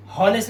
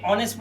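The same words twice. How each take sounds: First: "हॉनेस्ट" with the h sounded; wrong reading. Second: "ऑनेस्ट" with silent h; "ऑनेस्ट", no h at the front; correct reading. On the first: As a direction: misread "हॉनेस्ट" with an audible h at the start. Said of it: "हॉनेस्ट नहीं पढ़ते". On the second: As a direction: start "ऑनेस्ट" straight on the vowel. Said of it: "ऑनेस्ट पढ़ते हैं". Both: Shown as a demonstration.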